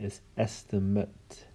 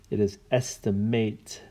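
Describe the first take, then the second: First: The last syllable has a reduced 'mit' sound. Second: The last syllable has a full 'mate' sound. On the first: It is used as a noun. "If it's a noun" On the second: It is used as a verb. "if it's a verb"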